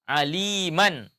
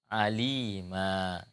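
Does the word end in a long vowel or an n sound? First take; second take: n sound; long vowel. First: The word ends with an n sound. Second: The word ends with a long a vowel. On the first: The reading continues past this word. "suara tanwin" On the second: The reading stops at this word. "diganti suara tanwin itu menjadi suara menjadi alif"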